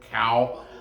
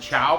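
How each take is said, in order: First: The name begins with a k sound. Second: The name begins with a ch sound. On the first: "They pronounce it cow" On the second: "some people pronounce it Chow"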